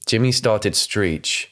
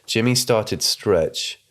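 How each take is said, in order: First: Slow, puzzled reading with "screech" said as written, stritʃ; "screech" read slowly as written. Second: Slow reading with "stretch" replacing "screech", strɛtʃ; "stretch" said deliberately in place of "screech"; slow reread. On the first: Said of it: "Is it some kind of martial arts". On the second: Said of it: "Does it mean stretch?". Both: Shown as a demonstration.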